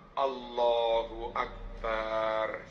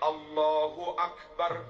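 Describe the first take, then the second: First: The final syllable bar is drawn out long. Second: The final syllable bar is kept short. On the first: The speaker calls it wrong. "Bar dibaca panjang itu salah" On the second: The speaker calls it right.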